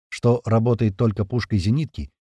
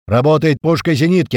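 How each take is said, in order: First: Said in the usual way. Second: Loud, high command; shouting. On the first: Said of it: "после слов Тумана". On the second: A narrator's reading. Commander assigning the guns amid firing, shouting. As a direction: shout the order over gunfire. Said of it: "прокричал Туман между выстрелами".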